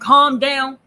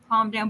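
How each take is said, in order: First: It is said in a heated, agitated tone. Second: It is said in a calm, even tone. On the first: "oh, I'm getting hyper" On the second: "if you say it in a calm tone"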